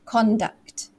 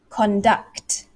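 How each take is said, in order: First: The stress is on the first syllable. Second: The stress is on the second syllable. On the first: The word is used as a noun. "I made my voice louder, higher pitched, and slow on that first stress" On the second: The word is used as a verb. "the stress falls on the second syllable"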